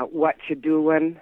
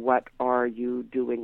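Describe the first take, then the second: First: "What you doing" run together casually; "What you doing" with the words blended; contracted. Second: "What are you doing" with each word separate; full, careful "What are you doing"; uncontracted. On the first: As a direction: slur "What you doing" into one slangy unit. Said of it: "what is very contracted". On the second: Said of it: "instead of". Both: Shown as a demonstration.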